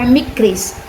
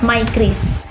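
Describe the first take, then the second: First: The first vowel is a short I sound. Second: The first vowel is a long I sound. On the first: The speaker calls it wrong. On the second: The speaker calls it right.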